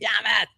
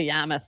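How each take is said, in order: First: Boston accent in imitation of Ben Affleck. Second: Said in the usual way. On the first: Podcaster imitating Ben Affleck reaching Yarmouth, Boston accent. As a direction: say it like a Boston local. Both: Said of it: "like, Boston, like, stupid thing".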